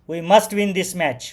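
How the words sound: The line is spoken in an angry way. The speaker is furious about the situation. "Angry रागाने"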